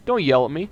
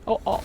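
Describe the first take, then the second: First: Loud indignant yell. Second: High pitched whiny repeat; high squeaky whine. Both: Acted.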